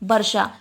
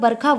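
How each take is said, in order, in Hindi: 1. मध्य व्यंजन sh ध्वनि है। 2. मध्य व्यंजन kh ध्वनि है। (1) "तो सही उच्चारण हमारा क्या है?" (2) "वर्षा को वर्षा ना बोलकर बरखा बोलते हैं। तो ये उच्चारण जो है वो हमारा बिल्कुल गलत है।"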